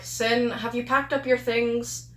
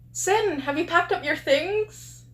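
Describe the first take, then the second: First: It is said in an annoyed tone. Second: It is said in a nice tone.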